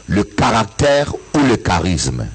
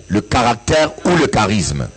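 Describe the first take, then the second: No difference in how they are said.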